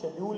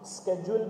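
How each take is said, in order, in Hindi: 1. यह शब्द 'sh' ध्वनि से शुरू होता है। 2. यह शब्द 'sk' ध्वनि से शुरू होता है। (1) "शेड्यूल भी बोल सकते हैं" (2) "सर इसको हम स्केड्यूल भी बोल सकते हैं"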